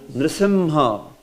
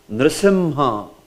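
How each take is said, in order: No difference in how they are said.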